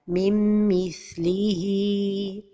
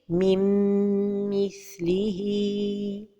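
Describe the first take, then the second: First: The n merges with no nasal hold. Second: The n merges with a held nasal hum. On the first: The speaker calls it wrong. "L'erreur et la prononciation sont données de temps pour la ghunna" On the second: The speaker calls it right. "la prononciation correcte est"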